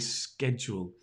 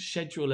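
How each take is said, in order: First: It uses a non-British pronunciation of the word. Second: It uses the British pronunciation of the word. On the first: "You can also say schedule" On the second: "as we say in Britain"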